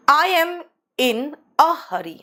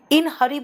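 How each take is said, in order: First: I am in A hurry, slow and clear; teacher modelling the phrase slowly; model sentence. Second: Said in the usual way. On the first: Shown as a demonstration. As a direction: lean on the little a in hurry. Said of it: "अगर मैं कहूँ". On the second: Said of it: "अब कहोगे "ma'am in hurry बोलो".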